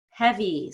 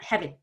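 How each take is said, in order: First: "Heavy" with a long, falling ee; stretched final E. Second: "heavy" with the final ee barely held; imitated mistake, heavy with a tiny E; clipped final vowel. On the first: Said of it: "stretch it out more than you think". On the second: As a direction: cut heavy short on the last vowel. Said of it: "not spending enough time on that vowel". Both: Shown as a demonstration.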